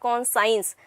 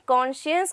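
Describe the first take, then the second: First: The second part sounds like the word 'science'. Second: The second part sounds like 'shuns'. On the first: The speaker calls it wrong. "and not conscience" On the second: The speaker calls it right. "the correct pronunciation over here is conscience"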